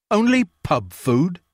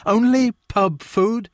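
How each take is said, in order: First: Slow, higher, offended repeat of "Only pub food?"; indignant landlord repeating "Only pub food?"; affronted echo. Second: Much higher and slow, stretching "Only pub food?"; offended landlord, rising disbelief; outraged repeat. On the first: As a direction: echo her words back, stung. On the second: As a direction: let the outrage climb on "Only". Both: A narrator's reading. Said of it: "soundless affront".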